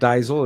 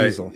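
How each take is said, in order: First: The first vowel sounds like 'eye'. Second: The first vowel sounds like 'ee'. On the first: The speaker calls it wrong. "It's not diesel" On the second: The speaker calls it right. "The second vowel is long, as in diesel"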